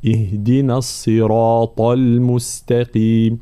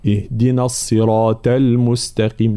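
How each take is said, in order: First: Slow الصراط with a heavy ṭa; correct heavy ṭa. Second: الصراط with ṭa thinned to ta; wrong ta for ṭa. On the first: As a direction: recite الصراط slowly, ṭa heavy. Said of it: "هكذا". (الصراط بطاء مفخمة ببطء) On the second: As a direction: show the error in الصراط. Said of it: "لا، هذا خطأ". (الصراط بالتاء خطأً) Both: Shown as a demonstration.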